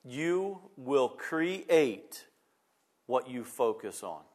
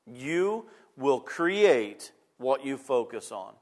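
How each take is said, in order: First: You will create, each word drawn out slowly; slow down and let every word of you will create land; deliberate, spaced-out emphasis on you will create what you focus on; slow emphatic pauses. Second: Said in the usual way. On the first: Shown as a demonstration.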